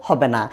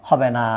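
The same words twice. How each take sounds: Both takes have the same delivery.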